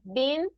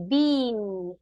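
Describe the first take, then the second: First: The vowel is a shorter, clipped sound. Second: The vowel is a long ee sound. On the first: The speaker calls it right. "it's like a been, but shorter" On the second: The speaker calls it wrong. "We don't say like E"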